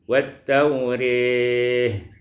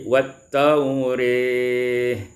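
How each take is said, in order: No difference in how they are said.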